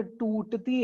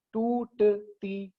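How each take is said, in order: First: Said in the usual way. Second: टूटती broken into slow, separate syllables. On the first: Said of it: "जहां पर आवाज टूटती है". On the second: Shown as a demonstration. Teacher shows students where the voice breaks, टूटती split syllable by syllable. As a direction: say टूटती very slowly, a gap after each syllable. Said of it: "syllables वो होते हैं जहां पर आवाज टूटती है".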